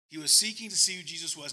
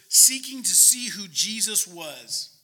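First: Said in the usual way. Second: "seeking to see who Jesus was" slow, loud and weighted; emphatic reading. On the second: Real, not acted. Preacher reading the verse to the congregation, slow emphatic "seeking". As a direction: punch "seeking" and spread the words out loudly.

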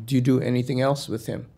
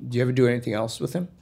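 First: Measured, evenly spaced question; retold cop asking carefully, word by word; deliberate repeat. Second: Retold cop slipping the question in quickly; quick casual question. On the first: Cop pressing the puzzled kid about Cleveland, deliberate. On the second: Cop questioning the kid about Cleveland, quick and offhand. Cop's first probing question.

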